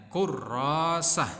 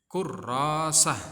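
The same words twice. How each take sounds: The two takes are said the same way.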